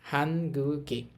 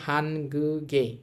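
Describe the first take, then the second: Both takes have the same delivery.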